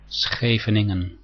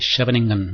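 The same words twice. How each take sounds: First: The name is said with a Dutch pronunciation. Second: The name is said with an anglicized pronunciation. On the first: The speaker calls it right. "the correct pronunciation in Dutch" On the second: The speaker calls it wrong. "Most people say"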